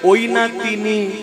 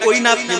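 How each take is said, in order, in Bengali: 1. শেষ শব্দটি দুই ভাগে ভাগ করা হয়েছে। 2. শেষ শব্দটি একসাথে জুড়ে এক শব্দ হিসেবে বলা হয়েছে। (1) "আবার বলছি ওই নাতিনি" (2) "একবার ডাকছি ওই নাতনি, মানে তোকে ডাকছি"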